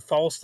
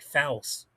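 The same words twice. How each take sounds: First: Said in the usual way. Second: False with a flat A, "fals"; mispronounced false. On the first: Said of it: "I was gonna say the word false". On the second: Shown as a demonstration. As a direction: say false to rhyme with pals. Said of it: "say the word false, like".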